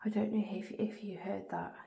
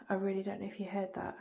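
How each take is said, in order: First: Hushed whisper in the dark. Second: Said in the usual way. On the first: Real, not acted. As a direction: breathe the words without voice.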